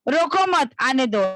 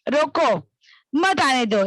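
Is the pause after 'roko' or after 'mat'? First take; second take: after mat; after roko. First: There is a pause after 'mat'. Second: There is a pause after 'roko'.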